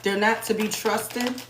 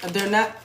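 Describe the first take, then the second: First: "not" leaned on slowly, drawn out; slow stress on not. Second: Said in the usual way. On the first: Shown as a demonstration. Warning viewers, slow with heavy stress. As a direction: spell it out, slow and firm on "not".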